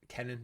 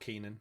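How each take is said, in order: First: The first vowel is a short 'eh' sound. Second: The first vowel is a long 'ee' sound. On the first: The speaker calls it right. "Kenan, not Keenan" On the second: The speaker calls it wrong. "not Keenan"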